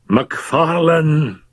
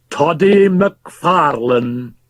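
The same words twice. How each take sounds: First: Somewhat loudly. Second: Repeated. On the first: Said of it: "he said somewhat loudly". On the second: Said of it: "repeated Fettes". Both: Acted.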